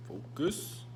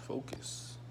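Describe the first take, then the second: First: Said in the usual way. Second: Breathy whispered reminder to himself. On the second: Real, not acted. Vlogger telling himself to concentrate, whispered "focus.". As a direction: whisper the word "focus." under your breath.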